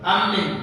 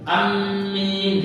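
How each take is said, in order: First: The vowel after the m is short. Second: The vowel after the m is long. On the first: "huruf ya dihilangkan" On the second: "mim ditasydid dan ada huruf ya"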